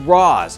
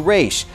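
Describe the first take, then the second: First: The name is said the Arabic way. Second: The name is said the Hebrew way. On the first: "the correct pronunciation in Arabic is" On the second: "the Hebrew pronunciation, which sounded closer to"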